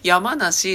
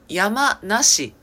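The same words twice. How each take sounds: First: It has the pitch pattern of the prefecture name. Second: It has the pitch pattern of a plain phrase. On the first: It names the prefecture. The speaker calls it wrong. "発音がね、山梨って言っちゃった" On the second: It means there is no climax. The speaker calls it right. "山がないってことです"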